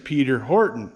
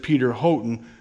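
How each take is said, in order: First: The surname is said the English way. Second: The surname is read the American way. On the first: The speaker calls it right. "is how they say or pronounce that over there in England" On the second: The speaker calls it wrong. "to me, in American, it says Peter Houghton"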